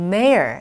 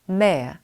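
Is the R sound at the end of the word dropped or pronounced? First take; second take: pronounced; dropped. First: The final R sound is pronounced. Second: The final R sound is dropped.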